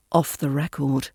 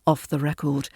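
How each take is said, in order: Both takes have the same delivery.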